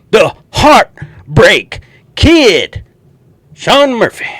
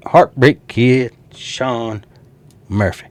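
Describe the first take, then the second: First: Drawn-out, high, loud wrestling intro; announcing a wrestler's entrance, slow and booming; ring announcer. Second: Said in the usual way. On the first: Pretend. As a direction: stretch it out like a ring announcer hyping the crowd.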